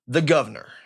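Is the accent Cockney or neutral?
neutral. It is said in a neutral accent.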